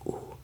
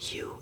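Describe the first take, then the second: First: The letter is named with German pronunciation. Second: The letter is named with English pronunciation. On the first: The speaker calls it right. "it's just U" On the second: The speaker calls it wrong. "It's not U"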